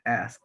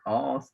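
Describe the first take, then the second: First: The vowel is short. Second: The vowel is long.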